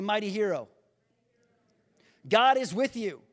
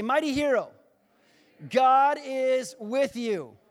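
First: Said in the usual way. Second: Emphatic, high, loud declaration, drawn out at the end; say it like you mean it. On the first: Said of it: "Now say it like you mean it". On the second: Shown as a demonstration. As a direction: proclaim it with full conviction, stretching the last words. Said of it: "say it like you mean it".

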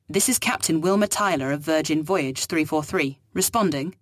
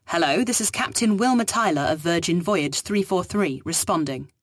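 First: Said in the usual way. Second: "Wilma" lifted, firmer second call; formal call. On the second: Acted. Captain repeats call to the voice, more firmly.

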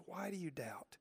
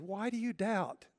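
First: Much softer, gentle Why do you doubt?; hushed question. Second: Higher, insistent Why do you doubt?; raised, pressing question. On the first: Jesus tenderly asking Peter again, hushed. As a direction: let the question fall to near a whisper. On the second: Jesus questioning Peter, higher and insistent. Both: Acted.

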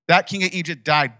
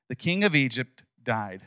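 First: "That" punched higher and louder; stress on THAT. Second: Said in the usual way. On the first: Shown as a demonstration. Preacher rereads the verse to the congregation, stressing "That". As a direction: hammer home "That king".

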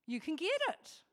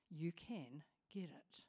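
First: Higher, stress on get; preacher stressing "get" to encourage the congregation; emphatic. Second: Soft unvoiced whisper; preacher whispering reassurance to listeners. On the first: Acted. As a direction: lift and punch "get" as good news. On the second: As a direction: lean in and whisper the promise.

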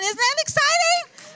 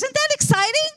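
First: Pitched far higher, pushing harder on exciting; even more excited. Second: High, bright rising call to the congregation; excited question. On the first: Preacher repeating the question to the church, even higher and more excited. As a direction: go up again and sell it harder. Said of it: "Oh, absolutely". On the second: Preacher rousing the congregation, excited and higher. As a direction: lift the room with a much higher question. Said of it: "Oh, come on". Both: Real, not acted.

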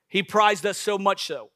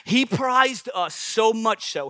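First: Said in the usual way. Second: Slowed down, each word leaned on; "prized" drawn out and stressed; slow emphasis. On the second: Shown as a demonstration. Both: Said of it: "hear me".

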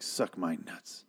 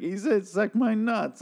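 First: Low-key quiet, slow defiance; quiet slow insult to the killer; defiant mutter. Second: High, slow mocking repeat; villain mocking the dead man's last words; mocking Negan. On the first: Retold or imitated. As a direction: mutter it like you don't care. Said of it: "and he's like". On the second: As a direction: mimic him back with a sneer. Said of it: "and then Negan's like".

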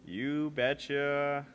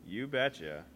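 First: Slow, drawn-out Minnesota "you betcha"; Minnesota accent. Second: Said in the usual way. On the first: Shown as a demonstration. Signing off the podcast, slow Minnesota "you betcha". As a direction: stretch "you betcha" like a Fargo local. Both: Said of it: "for Fargo".

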